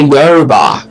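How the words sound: It is said with an anglicized English pronunciation.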